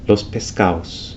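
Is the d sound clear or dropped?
dropped. The d between vowels is softened or dropped. "softening or the loss of the D sound"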